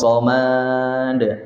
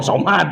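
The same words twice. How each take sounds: First: The final vowel is drawn out long. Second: The final vowel is kept short. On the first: The speaker calls it wrong. "tong somad atuh" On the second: The speaker calls it right.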